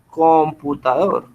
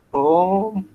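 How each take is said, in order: First: Said in the usual way. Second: "Computador" broken into com, pu, ta, dor; syllable by syllable. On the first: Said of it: "la fuerza o el acento está en esta sílaba". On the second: Shown as a demonstration. Teacher writing an example, "Computador" said syllable by syllable.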